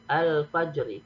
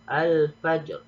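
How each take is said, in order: First: The word ends with a short i vowel. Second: The word ends on a bare r consonant. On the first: The speaker calls it wrong. "nggak boleh dibaca al-fajri" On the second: The speaker calls it right. "diwakafkan menjadi al-fajr"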